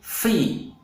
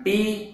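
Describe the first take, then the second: First: The syllable starts with an f sound. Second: The syllable starts with a p sound. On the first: The speaker calls it right. "tetapi fi" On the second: The speaker calls it wrong. "bukan pi"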